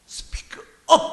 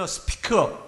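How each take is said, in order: First: 크게 속삭이듯 힘준 외침; 큰 소리로 말하라는 시범; loud. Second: Said in the usual way. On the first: Shown as a demonstration. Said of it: "큰 소리로 말하다". (크게 외치듯) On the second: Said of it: "이거는 무슨 뜻이냐면요".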